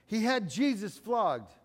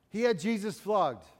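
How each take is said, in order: Both takes have the same delivery.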